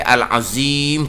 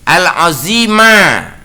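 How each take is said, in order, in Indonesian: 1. Kata itu berakhir dengan konsonan m. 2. Kata itu berakhir dengan vokal a yang ditambahkan.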